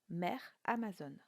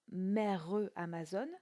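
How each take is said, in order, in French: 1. Le E final du premier mot est muet. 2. Le E final du premier mot se prononce. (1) "mais bien" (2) "On ne dira pas"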